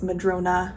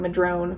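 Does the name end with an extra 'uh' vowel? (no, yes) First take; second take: yes; no. First: The name ends with an extra 'uh' vowel. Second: The name ends on the 'n' sound. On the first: The speaker calls it right. "but it is Madrona" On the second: The speaker calls it wrong. "I was saying it wrong"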